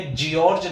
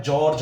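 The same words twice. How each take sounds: First: जॉर्ज said "jiorj", with an extra "ee"; wrong pronunciation. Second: जॉर्ज said as one syllable, "jorj"; correct pronunciation. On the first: Teacher contrasting the wrong जॉर्ज "jiorj" for students. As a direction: read जॉर्ज as "jiorj", the spelling way. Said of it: "जॉर्ज नहीं होता है". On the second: Teacher giving students the Oxford जॉर्ज as "jorj". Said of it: "जॉर्ज होता है". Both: Shown as a demonstration.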